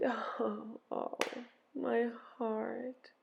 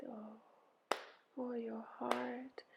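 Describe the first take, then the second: First: Soft, breath-filled sigh. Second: Slow, whispery sigh of sympathy; soft echoed sigh. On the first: Ereshkigal sighing over her heart, soft pained sigh. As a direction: let the words out on a hushed sigh. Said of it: "She sighed". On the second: Helpers echo Ereshkigal's heartache, hushed slow sigh. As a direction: sigh it back very gently. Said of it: "They sighed". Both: A narrator's reading.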